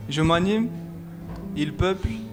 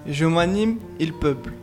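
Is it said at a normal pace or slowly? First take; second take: slowly; normal. First: It is said slowly, with long pauses. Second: It is said at a normal pace.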